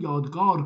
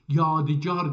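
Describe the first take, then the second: First: The word is said with two syllables. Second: The word is said with three syllables. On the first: The speaker calls it wrong. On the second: The speaker calls it right.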